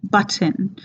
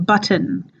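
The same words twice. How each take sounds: First: The middle T is a hard, released T. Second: The middle T is a hard, released T.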